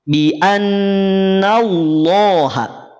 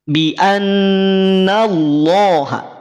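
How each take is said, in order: The two takes are said the same way.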